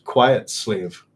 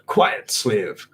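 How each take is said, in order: First: Said in the usual way. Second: Thin, complaining whine; whining voice. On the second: Acted. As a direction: whine it like a petulant servant. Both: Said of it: "B Jazz said in that whining voice".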